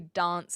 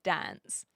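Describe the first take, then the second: First: Said with a South Australian, more British-sounding accent. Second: Said with a general, less British-sounding Australian accent. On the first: "they'll say dance" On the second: "instead of dance"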